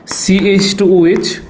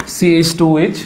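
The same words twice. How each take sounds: First: CH টু OH very slowly, each part drawn out, টু stretched with a rise; slow dictation. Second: Said in the usual way. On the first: Shown as a demonstration. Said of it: "teacher dictates the formula slowly". (ধীরে ধীরে বলা CH টু OH) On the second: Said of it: "teacher repeats the formula normally".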